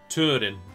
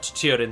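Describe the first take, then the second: First: The vowel after T is a plain 'oo'. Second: The vowel after T has a 'y' glide. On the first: The speaker calls it right. "It should be like moon" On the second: The speaker calls it wrong. "You shouldn't pronounce it like a Y"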